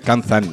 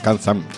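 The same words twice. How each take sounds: First: The name is said with an n sound. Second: The name is said without the n sound. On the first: This is how people usually say it. "Decimos siempre Kanzan" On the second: Nobody says it this way. "nunca decimos Kanzan"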